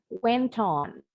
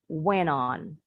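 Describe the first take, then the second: First: The T is a clear true T, British style. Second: The T sounds like a quick D, American style.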